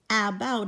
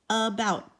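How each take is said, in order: First: The first vowel is a full short a. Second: The first vowel is a reduced schwa. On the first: The speaker calls it wrong. "it's not about because the short sound for A is a" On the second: The speaker calls it right. "it's a"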